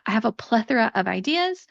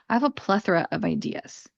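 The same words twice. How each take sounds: First: It sounds positive and happy. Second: It sounds negative and overwhelmed.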